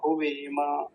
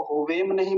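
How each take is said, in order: First: हुवेम with a full vowel after म, huvema; right way. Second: हुवेम ending in a dead म; wrong version. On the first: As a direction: correct version. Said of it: "ऐसा". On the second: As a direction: clip the final म of हुवेम. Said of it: "हलंत नहीं है". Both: Shown as a demonstration.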